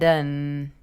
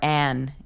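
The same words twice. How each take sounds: First: The vowel is reduced to a weak uh sound. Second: The vowel is a full, clear a sound. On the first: The speaker calls it right. "an actually will reduce to an uh sound" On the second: The speaker calls it wrong. "We don't usually say an"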